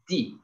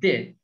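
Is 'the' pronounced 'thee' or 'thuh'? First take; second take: thee; thuh. First: The article is said with a long 'ee' vowel. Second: The article is said with a short 'uh' vowel. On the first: The next word starts with a vowel sound. "if a word starts with a vowel letter like this, ... Then we read this article as D" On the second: The next word starts with a consonant sound. "But if a word start with what? A consonant letter ... then we read as what?"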